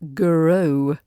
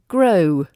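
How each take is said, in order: First: An extra uh vowel comes between G and R. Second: G and R join with no extra vowel. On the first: The speaker calls it wrong. "some people put that uh sound as grow" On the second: The speaker calls it right. "when it should be grow"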